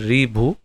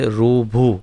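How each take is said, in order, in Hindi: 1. पहला अक्षर 'ri' की तरह बोला जाता है। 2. पहला अक्षर 'ru' की तरह बोला जाता है। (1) "हम हिंदी में करें तो रीभू" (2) "जैसे गुजरात में उसका उच्चारण करेंगे रूचा, जैसे रूभू"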